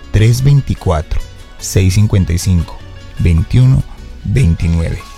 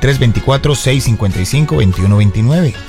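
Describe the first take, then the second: First: The number is read slowly. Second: The number is read at normal pace.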